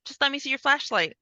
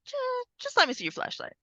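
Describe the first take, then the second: First: Said in the usual way. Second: Much higher, pleading insistence; insistent repeat. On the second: Retold or imitated. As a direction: push the request again, pitched way up. Girl insisting again, pitched up.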